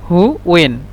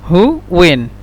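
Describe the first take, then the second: No difference in how they are said.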